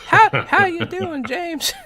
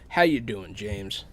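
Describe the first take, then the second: First: It is said in a put-on feminine voice. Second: It is said in the speaker's normal voice.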